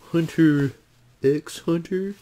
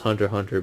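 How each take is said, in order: First: The middle X is spoken aloud. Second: The middle X is left silent. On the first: The speaker calls it wrong. "you know it's wrong to say it" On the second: The speaker calls it right. "I know it's Hunter x Hunter"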